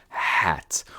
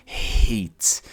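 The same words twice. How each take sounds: First: HAT with a short open "aeh" vowel. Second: HATE said with a clear "ay" vowel; long-A hate. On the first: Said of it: "Se não tivesse E no final". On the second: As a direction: say HATE like the letter A, silent E. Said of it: "A gente tá falando a letra em si". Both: Shown as a demonstration.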